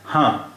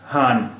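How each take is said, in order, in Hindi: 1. स्वर अनुनासिक है, उसमें पूरा 'न' नहीं है। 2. शब्द पूरे 'न' व्यंजन से खत्म होता है। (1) "लेकिन बिंदी नहीं, इसलिए इसका उच्चारण है हाँ" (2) "ये नून हो जाएगा, और फिर इसका उच्चारण होगा हान"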